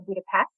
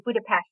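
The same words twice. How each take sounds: First: Budapest with a plain hissed s; American pronunciation. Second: Budapest with the s said as sh; Hungarian pronunciation. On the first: Author contrasts the English way, plain s in Budapest. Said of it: "the S sound is sh". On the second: Author shows her Hungarian roots, Hungarian sh in Budapest. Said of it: "I say Budapest rather than". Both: Shown as a demonstration.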